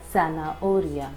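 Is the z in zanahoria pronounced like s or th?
s. The z is pronounced like English s. This is how it is said in Latin America. "in Latin American countries we will say it as"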